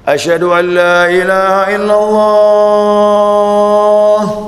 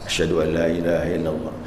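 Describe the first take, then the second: First: The phrase is said loudly and fully. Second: The phrase is said softly and quietly. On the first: It is the full call proclaimed aloud. "sebelum dikeraskan" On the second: It is a quiet warm-up before the loud call. "Yang pertama kan pelan"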